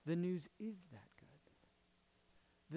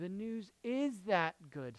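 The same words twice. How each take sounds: First: Drawn-out, soft "The news is that good"; slow, weighty delivery, softly spoken; slow, hushed emphasis. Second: "The news is that good" at normal pace, stress on IS; soft but firmer, IS stressed; firm restatement. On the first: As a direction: let each word of "The news is that good" land slowly and quietly. Key line said slowly, then repeated. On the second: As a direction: restate it firmly, leaning on "is". Same line repeated less slowly. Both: Real, not acted.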